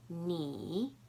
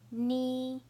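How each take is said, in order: First: The pitch dips low, then rises. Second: The pitch stays high and level.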